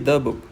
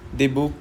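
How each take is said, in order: First: The vowel glides smoothly into the next word. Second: The two words are said apart, not glided. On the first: The speaker calls it right. "But कि द बुक" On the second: The speaker calls it wrong. "द बुक नहीं कहना है"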